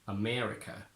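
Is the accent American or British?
American. American accent, with a lower, longer e sound. "the e goes down and it gets longer"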